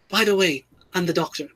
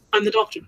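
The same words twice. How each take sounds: First: Tossed-off, softer mock of the line; offhand mock line. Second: Higher, flippant mock line; mock flat line. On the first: Mocking Jodie's Doctor announcing herself, offhand and flat. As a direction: drop it casually, no weight, trailing off. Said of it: "Even the way she said it". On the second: Mocking how Jodie's Doctor says her line, chirpy. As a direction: chirp it lightly as if it means nothing. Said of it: "It is simply".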